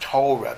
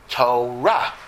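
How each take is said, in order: First: The stress is on the first syllable. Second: The stress is on the last syllable. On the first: This is the Yiddish pronunciation. The speaker calls it wrong. "not Torah" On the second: This is the Hebrew pronunciation. The speaker calls it right. "in Hebrew, most words are accented in the last syllable"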